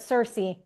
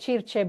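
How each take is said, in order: First: The name is pronounced with English sounds. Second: The name is pronounced with Italian sounds.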